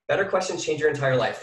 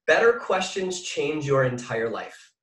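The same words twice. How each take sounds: First: Said in the usual way. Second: Slow dictation. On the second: Shown as a demonstration. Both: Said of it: "Write this down".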